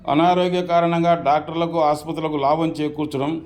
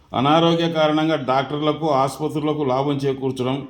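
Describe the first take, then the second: The two takes are said the same way.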